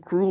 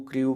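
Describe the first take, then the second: First: क्रू said 'kroo', no y-glide; one clean 'oo' vowel in क्रू; correct pronunciation. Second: क्रू wrongly said 'kree-yoo'; common mispronunciation. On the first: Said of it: "ये क्रू होता है". (क्रू का सही उच्चारण, बिना 'य' के) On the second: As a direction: slip a y-glide into क्रू, like 'kriu'. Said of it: "क्रू पढ़ते हैं, क्रू नहीं होता". (क्रू को गलत ढंग से 'क्रियू' बोलना) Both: Shown as a demonstration.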